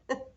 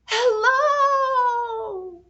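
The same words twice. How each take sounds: First: The word is said very quietly. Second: The word is said very loudly. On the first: "Let's say hello as quietly as we can" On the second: "Let's say hello as loudly as we can"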